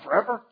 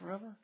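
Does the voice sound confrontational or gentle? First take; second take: confrontational; gentle. First: It is said in a harsh, confrontational tone. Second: It is said in a soft, gentle tone. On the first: The speaker is accusing and upset. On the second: The speaker is asking without accusing.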